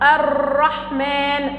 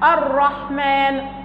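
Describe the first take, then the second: First: The r is rolled in a long trill. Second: The r is a single short tap. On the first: The speaker calls it wrong. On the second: The speaker calls it right.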